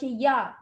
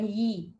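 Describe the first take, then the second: First: The y is followed by an a vowel. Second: The y is followed by an i vowel. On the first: The speaker calls it right. "mesti dibaca ya" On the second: The speaker calls it wrong. "bukan yi"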